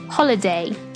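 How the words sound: It is said in a British accent.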